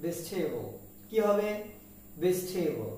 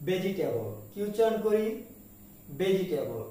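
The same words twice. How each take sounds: First: ভেজিটেবল squeezed to bej-thay-bol; correct pronunciation. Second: ভেজিটেবল as be-ji-te-bol, four beats; common mispronunciation. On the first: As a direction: say ভেজিটেবল in three beats, no i, puffed t. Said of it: "কিন্তু এর উচ্চারণ হবে". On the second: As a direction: say ভেজিটেবল with every syllable. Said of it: "আমরা এটাকে উচ্চারণ করে থাকি". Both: Shown as a demonstration.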